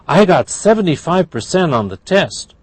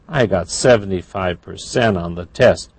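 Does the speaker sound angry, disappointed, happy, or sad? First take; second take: happy; disappointed. First: It is said in a happy tone. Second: It is said in a disappointed tone. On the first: "That's happy"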